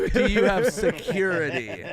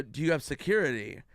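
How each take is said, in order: First: Louder, emphatic "Do you have security?"; insistent repeat. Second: Said in the usual way. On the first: Retold or imitated. Comic repeats "Do you have security?" to evasive venue manager, insistent. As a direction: press "Do you have security?" with a laugh creeping in. Repeats question after being dodged.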